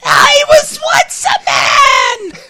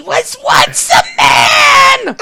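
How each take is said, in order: First: Much higher, slow shrieking wail; Cobra Commander voice. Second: Strained, shouting villain wail; a half-done shout in the villain's voice; Cobra Commander voice. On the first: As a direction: wail it like a cartoon villain. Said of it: "This is an actual, actual line". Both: Retold or imitated.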